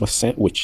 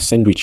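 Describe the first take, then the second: First: No d sound is heard in the middle. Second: A d sound is heard in the middle. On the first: The speaker calls it right. "on dit sandwich" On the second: The speaker calls it wrong. "on ne dit pas sandwich"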